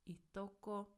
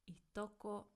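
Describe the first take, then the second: The two takes are said the same way.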